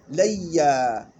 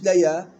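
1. صوت الياء مشدد ممدود. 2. صوت الياء قصير ومفرد.

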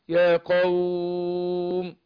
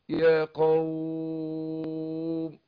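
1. تُمَدّ الحركة في 'qawm' أربع عدّات. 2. تُمَدّ الحركة في 'qawm' ست عدّات. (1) "أربعة" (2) "ستة"

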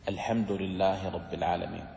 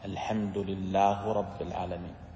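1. كلتا الكلمتين تحتفظ بحركتها الإعرابية المعتادة. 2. الحركة الأخيرة في lillah هي الضمة.

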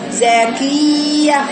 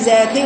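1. صوت y مشدد وممدود. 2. صوت y قصير ومفرد. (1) "مفروض كده زاكية" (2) "ما تقوليش زاكية"

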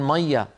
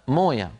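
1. تُنطق بالمصرية 'mayya'. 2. تُنطق بالحجازية 'moya'. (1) "في بلاد مثلا مصر يقولون مية" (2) "في الحجاز في السعودية يقولون موية"

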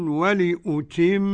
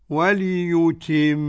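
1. الهمزة تُنطق همزة كاملة. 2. تُبدل الهمزة ياءً. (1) "تحقيق" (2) "والإبدال ياء"

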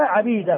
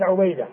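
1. الحرف الأول هو 'a'، كما في "Abida". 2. الحرف الأول هو 'u'، كما في "Ubayda". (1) "عبيدة بفتح العين" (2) "مضموم العين"

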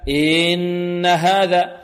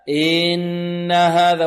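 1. الحركة الأولى تُمَدّ مدًّا طويلًا. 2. الحركة الأولى تُمَدّ مدًّا طويلًا.

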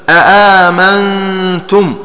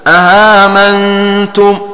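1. تُنطق الهمزة الثانية كاملةً وواضحة. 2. تُسهَّل الهمزة الثانية نحو صائت. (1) "حققوا الهمزة الثانية في المواضع الثلاثة هكذا" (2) "بتسهيلها بين بين هكذا"

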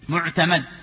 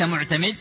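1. الحركة قبل الميم الأخيرة هي 'a'. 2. الحركة قبل الميم الأخيرة هي 'i'. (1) "لفتح الميم" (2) "ليس معتمد"

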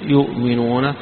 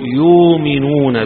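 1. تأتي الهمزة بعد الحركة الأولى. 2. تتحول الهمزة إلى مدّ طويل. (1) "قراءة الجمهور بالهمز فيها" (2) "فيبدلها فيقول"

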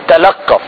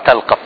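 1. تُنطق الكلمة مع تشديد على الحرف. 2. تُنطق الكلمة بدون تشديد على الحرف.

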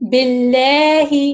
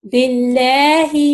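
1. L پتلا ہے، ہونٹ پھیلے ہوئے ہیں۔ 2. L پتلا ہے، ہونٹ پھیلے ہوئے ہیں۔

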